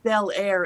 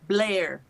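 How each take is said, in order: First: The name is said as two separate syllables. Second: The name is squeezed into one syllable. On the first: This is the spelling-based way outsiders say it. The speaker calls it wrong. "it's not Bel Air" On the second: This is how locals say it. The speaker calls it right. "it's Blair"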